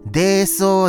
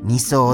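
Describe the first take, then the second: First: The word begins with the syllable 'dei'. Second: The word begins with the syllable 'ni'. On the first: The speaker calls it wrong. "僕はずっと泥層って言っていたのに、それが大きな間違い" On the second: The speaker calls it right. "二層って"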